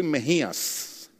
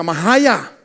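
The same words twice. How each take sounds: First: "Mejías" dicho despacio y claro, con la jota española; nombre bien dicho. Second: "Majaya" imitando a un anglohablante, con a abiertas y sin jota fuerte; nombre mal pronunciado. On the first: Shown as a demonstration. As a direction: pronuncia "Mejías" con cuidado. ("Mejías" pronunciado correctamente y despacio) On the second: Retold or imitated. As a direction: imita cómo lo destrozaba el compañero. ("Majaya", mal dicho al estilo gringo) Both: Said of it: "yo no podía pronunciar mi nombre".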